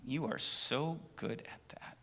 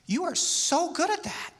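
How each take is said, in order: First: The tone sounds slightly jealous. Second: The tone sounds warm and admiring. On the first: The speaker envies the skill. "there's a little bit of jealousy" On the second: The speaker sincerely admires the skill. "that's what I'm I'm really admiring"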